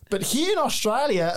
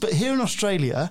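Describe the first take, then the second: First: It is said in a put-on Australian accent. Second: It is said in the speaker's normal accent.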